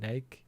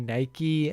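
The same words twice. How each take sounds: First: It is said with a British pronunciation. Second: It is said with an American pronunciation. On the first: "UK they say Nike" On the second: "In America, they say Nike"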